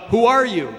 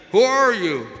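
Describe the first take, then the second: First: High, loud call; curious yell. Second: High, loud call thrown back; echoing answer. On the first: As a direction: yell it out into the mountains. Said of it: "he yells out". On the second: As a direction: answer like a mountain echo, drawn out. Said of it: "He receives the answer". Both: Acted.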